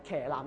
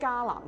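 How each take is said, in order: First: The first syllable is read like 騎, with a k-sound. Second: The first syllable is read like 家, with a g-sound. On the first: This is the common reading used since the Song dynasty. The speaker calls it wrong. "當騎男我們讀成是騎男的時候呢，都不是對的" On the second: This follows the original Sanskrit transliteration. The speaker calls it right. "咁你讀僧伽男其實是對的"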